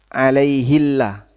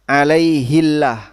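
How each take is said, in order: The two takes are said the same way.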